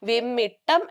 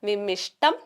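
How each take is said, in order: First: The middle consonant is a doubled 'tt' sound. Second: The middle consonants form a 'sht' cluster. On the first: The speaker calls it right. "വിമ്മിട്ടം എന്നുള്ള രീതിയിലാണ് പറയുന്നത്" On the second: The speaker calls it wrong. "വിമ്മിഷ്ടം അല്ല"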